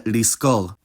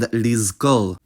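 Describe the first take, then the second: First: The fricative after 'li' is a voiceless s. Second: The fricative after 'li' is a voiced z. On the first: "the fricative changed its voicing to match the plosive after it" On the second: "At least that's how they've been pronounced"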